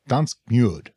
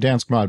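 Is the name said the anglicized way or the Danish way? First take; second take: Danish; anglicized. First: The name is said in the original Danish way. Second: The name is said in a simplified anglicized way. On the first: This is how the name really goes. The speaker calls it right. "but it's actually Dansk Mjød" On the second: This is how the hosts usually say it. The speaker calls it wrong. "we say Dansk Mod"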